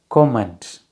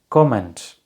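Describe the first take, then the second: No difference in how they are said.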